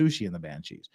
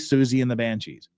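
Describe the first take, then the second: First: The name is said like 'Soo-shee'. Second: The name is said like 'Soo-zee'. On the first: This is how it is commonly said in America. The speaker calls it wrong. "Everybody in America pronounces it Sushi and the Banshees" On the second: This matches how the name is really pronounced. The speaker calls it right. "I'm going to say Susie and the Banshees"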